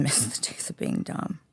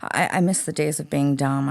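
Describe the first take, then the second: First: Soft whispered aside through a laugh. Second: Said in the usual way. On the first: Shown as a demonstration. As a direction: breathe it out with a giggle, much softer. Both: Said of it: "I say it all the time".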